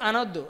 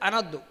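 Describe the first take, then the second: The two takes are said the same way.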